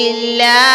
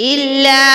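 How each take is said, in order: Both takes have the same delivery.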